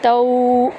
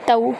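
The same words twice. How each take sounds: First: The vowel is drawn out long. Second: The vowel is short, soft and quick. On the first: The speaker calls it wrong. "इसको लंबा नहीं करेंगे, तऊ ऐसे नहीं करेंगे" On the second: The speaker calls it right. "नरमी और जल्दी से पढ़ेंगे"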